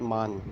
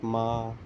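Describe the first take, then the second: First: It ends with a clear n sound. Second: It ends on the vowel with no n sound. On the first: The speaker calls it wrong. "not not man" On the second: The speaker calls it right. "the n here is like really silent type"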